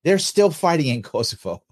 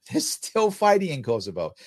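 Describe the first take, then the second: First: Said in the usual way. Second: Laughing. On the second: Real, not acted.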